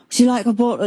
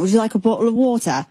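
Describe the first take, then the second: First: Put-on light English accent, offering kindly; a hint of an English accent offering a drink; a rock bassist's English accent. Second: Put-on quick, fuller English accent, offering a drink; a rock bassist's English accent. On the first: a rock bassist offering a pregnant fan water, light English accent. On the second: a rock bassist insisting a pregnant fan take water, English accent. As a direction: imitate an English rocker kindly offering water. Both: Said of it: "in his accent".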